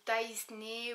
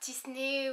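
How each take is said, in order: First: The name is pronounced like Taisney. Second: The name is pronounced like Tisney. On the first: "ou Taisney" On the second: "c'est pas Tisney"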